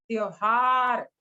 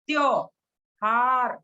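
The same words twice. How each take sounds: First: Said in the usual way. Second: त्योहार stretched out very slowly; slow demonstration. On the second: Shown as a demonstration. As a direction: model त्योहार slowly for the class. (त्योहार धीरे-धीरे बोलकर दिखाना) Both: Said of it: "इसको कैसे बोलेंगे हम?".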